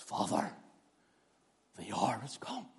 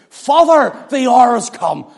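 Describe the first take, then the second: First: Hushed whisper to the Father; an intimate whispered prayer. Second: Father called out high and loud, a strong proclamation; an open, ringing plea; loud cry. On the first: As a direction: breathe it, barely voiced. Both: Shown as a demonstration. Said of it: "I wonder how he said it".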